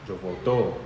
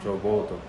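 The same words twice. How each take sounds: First: The stress is on the last syllable of voto. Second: The stress is on the first syllable of voto. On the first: Someone else voted in the past. "I'm emphasizing the O at the end a little bit more" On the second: The speaker votes now. "I vote"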